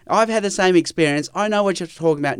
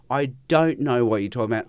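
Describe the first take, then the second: First: Quick, a bit higher, glib "I know what you're talking about"; mock know-it-all. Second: Said in the usual way. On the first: Guest mocking a listener who claims shared experience, glib and quick. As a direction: rattle it off like someone who assumes they understand. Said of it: "No, I don't know what you're talking about".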